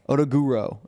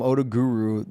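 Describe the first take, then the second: First: The name ends with an 'oh' vowel sound. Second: The name ends with an 'oo' vowel sound. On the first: This is how the name reads from its spelling. "There's an O at the end. Odaguro is how I would look at it and pronounce it" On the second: This is how others say the name. "You guys call him Odaguru"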